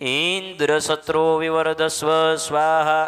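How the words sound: Indra is drawn out with a long vowel. May a son be born who is killed by Indra. The speaker calls it wrong. "ઇન્દ્રને લાંબા સ્વરે બોલવા લાગ્યા"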